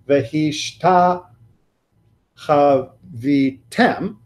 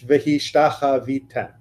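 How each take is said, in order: First: There is a long break between the words. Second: There is only a tiny hesitation between words. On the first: The speaker calls it wrong. "We're not talking about one of the emperor breaks ... It's not" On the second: The speaker calls it right. "Just a slight extra fraction of a second more"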